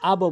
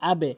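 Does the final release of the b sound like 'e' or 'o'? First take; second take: o; e. First: The b is released with an o-like vowel. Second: The b is released with an e-like vowel. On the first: The speaker calls it wrong. "আবো বলবেন না" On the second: The speaker calls it right. "নিচের দিকে ধাক্কা"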